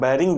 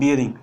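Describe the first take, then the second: First: The first syllable sounds like 'bay'. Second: The first syllable sounds like 'bee-ya'. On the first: This is the everyday colloquial form. The speaker calls it wrong. "आम आमतौर पर बोलचाल की भाषा में हम लोग इसको बैरिंग बोलते हैं। ... जो कि सही उच्चारण नहीं है।" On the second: This is the technical form. The speaker calls it right. "सही उच्चारण होता है बियरिंग।"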